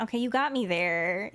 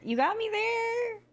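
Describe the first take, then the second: First: Said in the usual way. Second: High, slow teasing sing-song; playful sing-song. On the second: Pretend. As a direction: draw it out high, mock-conceding. Repeating the concession playfully.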